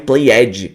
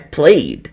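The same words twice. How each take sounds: First: The ending is said as an extra syllable. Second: The ending is only a light final d sound. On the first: The speaker calls it wrong. "quando você fala pronunciando a vogal" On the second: The speaker calls it right. "só pronuncia o D bem sutilmente"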